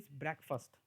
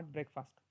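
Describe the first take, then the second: First: Breakfast said brek-fəst, second vowel reduced; the right breakfast, brek-fəst; correct breakfast. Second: Breakfast said break-fast, slow; the mistaken breakfast, break-fast; wrong breakfast. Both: Shown as a demonstration. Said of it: "not breakfast".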